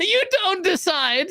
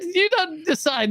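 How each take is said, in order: First: "You" pushed up high with a rising end; stress on YOU. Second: "don't" punched, falling tune to the end; stress on DON'T. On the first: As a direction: hit the word "You", tune climbs. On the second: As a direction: lean hard on "don't" and let it drop. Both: Acted.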